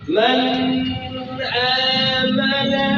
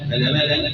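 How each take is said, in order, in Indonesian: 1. Bunyi n dibaca jelas dan terpisah. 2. Bunyi n tidak dibaca jelas. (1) "dibacanya nunnya idhar" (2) "gak diidhar"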